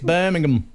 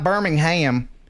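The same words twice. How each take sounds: First: It is pronounced in the British way. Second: It is pronounced in a non-British way. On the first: The speaker calls it right. "It's Birmingham" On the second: The speaker calls it wrong. "it's not Birmingham in the, in the U K"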